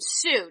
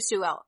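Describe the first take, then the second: First: The name ends on a vowel, no L. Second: The name ends with an L sound. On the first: The speaker calls it right. "it's Lide, yes, and then Sue" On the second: The speaker calls it wrong. "They don't say Suel"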